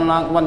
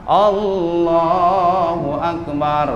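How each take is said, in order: First: The phrase is rushed and squashed into two syllables. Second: The phrase is said slowly with every syllable clear. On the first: The speaker calls it wrong. "Jadi lakban. Buru-buru" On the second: The speaker calls it right.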